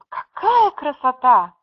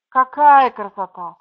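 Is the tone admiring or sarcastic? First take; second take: admiring; sarcastic. First: The phrase is said with a warm, admiring tone. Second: The phrase is said with an ironic, disapproving tone. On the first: The speaker genuinely admires the beautiful day. "Во втором случае, восхищение" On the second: The speaker means the opposite; the weather is bad. "В первом случае, какая красота, это не согласие"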